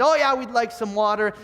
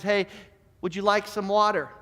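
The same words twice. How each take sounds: First: Higher, jeering mock agreement. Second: A mild, kindly offer; kindly, soft. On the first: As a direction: echo the offer back with a mild sneer. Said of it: "start to mock him". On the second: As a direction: offer it gently, in an understated way. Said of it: "so softly and so kindly". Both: A narrator's reading.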